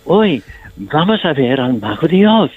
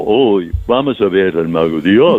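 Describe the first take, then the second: First: Lightly played innocent scarecrow; with innocence. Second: A hint of a dopey scarecrow, a bit lower; lightly played simpleton, stretching vamos; playing dumb. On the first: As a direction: say it with simple childlike wonder. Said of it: "si tú dices con inocencia". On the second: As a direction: say it like you're putting on stupid. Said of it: "Y se hace tonto como". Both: Shown as a demonstration.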